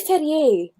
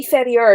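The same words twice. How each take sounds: First: "Ferrier" ending in "ee-ay", silent R; imitated would-be-educated French reading of "Ferrier"; French pronunciation. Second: "Ferrier" ending in "ee-er"; anglicised "Ferrier", no French "ay" ending; English pronunciation. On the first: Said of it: "want to look like they're educated". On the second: Retold or imitated. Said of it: "but pronounced the English way".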